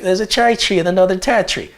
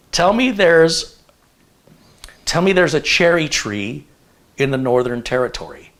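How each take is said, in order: First: Quick, high mock Australian; imitated Australian accent. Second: Said in the usual way. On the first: Visiting girl repeats the test phrase, imitated Australian accent. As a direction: rattle it off in an exaggerated Australian accent. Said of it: "And she's like". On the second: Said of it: "I go".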